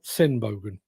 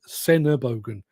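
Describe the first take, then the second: First: 'Sen' runs straight into 'bogen' with no vowel. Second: A short vowel is heard between 'Sen' and 'bogen'. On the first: The speaker calls it wrong. "not Senbogen" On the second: The speaker calls it right. "it is Senebogen"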